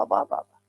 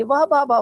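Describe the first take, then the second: First: Soft whisper of wonder, barely breathed; whispered praise. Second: Said in the usual way. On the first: Shown as a demonstration. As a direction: let the praise fade into a whisper. Repeated praise dying away.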